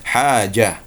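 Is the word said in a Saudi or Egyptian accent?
Saudi. It is said with a soft j sound.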